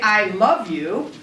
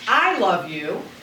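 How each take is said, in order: First: The stress falls on the word love. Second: The stress falls on the word I. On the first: I love you rather than hate you. "that means that I love you as opposed to hating you" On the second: It is me, not someone else, who loves you. "that means I love you as opposed to somebody else loving you"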